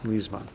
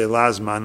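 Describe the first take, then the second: First: The first vowel is a high 'ee' sound. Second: The first vowel is an open 'ah' sound. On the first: "you put a chirk under the Lamid" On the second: "we all have a Patach, and the notes bring that that is the Minhag Olam to say Lazman"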